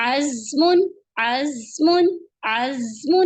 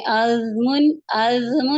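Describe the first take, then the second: First: عزم with a sharp hissing ز; whistled ز. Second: عزم with a loose mouth like ذ, wrong on purpose; wrong way, slack mouth. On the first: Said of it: "سیٹی کی آواز آنی چاہیے". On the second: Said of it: "ایسے نہیں پڑھنا آپ نے". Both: Shown as a demonstration.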